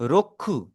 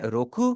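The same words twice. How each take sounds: First: रोखु with the k held long and doubled. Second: Said in the usual way. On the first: Shown as a demonstration. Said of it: "मैं के की आवाज को मैं double कर रहा हूं". (रोखु में क को दबाकर दो बार बोलें) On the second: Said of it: "पहले वाले को हम पढ़ रहे हैं रोखु".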